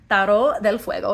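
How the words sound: The name is said in a native-style accent.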